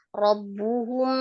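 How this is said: The word flows smoothly as a single unit. The speaker calls it right. "sementara robbuhum satu kata Umi. Robbuhum, gitu aja"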